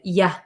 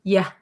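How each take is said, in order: First: The word has a relaxed, reduced vowel. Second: The same.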